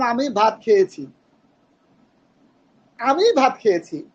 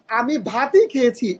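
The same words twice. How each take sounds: First: আমি hit first and hardest; stress on আমি. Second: Slow, ভাতই weighted with its emphatic ই; stress on ভাতই. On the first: Teacher demonstrating stress on আমি for the class. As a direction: lean on আমি in আমি ভাত খেয়েছি. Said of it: "আমির উপর জোর দিতেছি". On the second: Teacher showing stress moved onto ভাতই. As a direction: dwell on ভাতই. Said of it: "এখানে কিন্তু ভাতের উপর জোর দেওয়া". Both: Shown as a demonstration.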